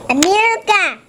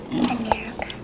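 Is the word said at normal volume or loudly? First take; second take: loudly; normal. First: It is said loudly, almost yelled. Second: It is said at normal volume.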